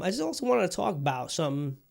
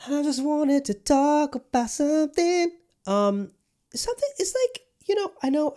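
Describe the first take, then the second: First: Said in the usual way. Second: Much higher, slow, put-on squeak; drawn-out cartoon squeak on the same words; squeaky high voice. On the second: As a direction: repeat the line in a silly falsetto. Repeats the line in a squeaky voice.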